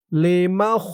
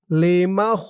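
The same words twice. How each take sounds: The two takes are said the same way.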